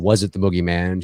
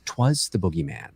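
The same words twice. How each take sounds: First: Said in the usual way. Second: 'Twas said as one clipped word, stress on it. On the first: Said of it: "she's not saying". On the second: Shown as a demonstration. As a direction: lean on 'Twas, not on boogeyman. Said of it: "think of it more like she says".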